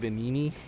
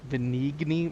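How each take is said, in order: First: The G is silent in the middle. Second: The G sound is pronounced in the middle. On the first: The speaker calls it right. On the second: The speaker calls it wrong.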